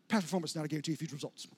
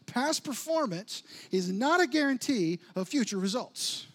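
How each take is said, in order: First: The phrase is spoken very fast. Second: The phrase is spoken at a normal pace.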